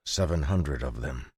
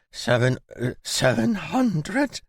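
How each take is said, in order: First: Said in the usual way. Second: High, slow stammered disbelief; stammering. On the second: A narrator's reading. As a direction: stutter it out in shock. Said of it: "he stammered".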